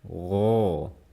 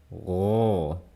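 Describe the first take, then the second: First: The sound is pushed straight out. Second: The sound is pushed straight out.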